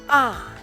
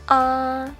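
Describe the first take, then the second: First: The pitch falls sharply from high to low. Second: The pitch stays high and level throughout. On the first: "The fourth tone is a short, sharply falling tone" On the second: "The first tone in Mandarin is high and level"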